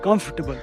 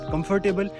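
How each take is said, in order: First: The middle syllable is reduced or dropped. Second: The middle 'fort' syllable is fully pronounced. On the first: The speaker calls it right. "It's" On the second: The speaker calls it wrong. "It's not"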